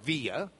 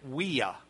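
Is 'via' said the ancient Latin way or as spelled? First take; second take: as spelled; ancient Latin. First: It is said the way it is spelled. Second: It is said the ancient Latin way. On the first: "but it's spelled via" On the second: "they would have pronounced it via"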